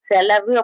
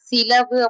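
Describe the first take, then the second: First: The first vowel is 'e'. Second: The first vowel is 'i'.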